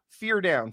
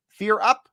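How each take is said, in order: First: "fear down" with pitch falling on "down"; falling tune. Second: "Fear up" with a rising pitch on "up"; rising tune. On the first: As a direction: drop "down" at the end, final and flat. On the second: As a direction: lift "up" at the end, like a question. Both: Shown as a demonstration. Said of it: "fear up, fear down".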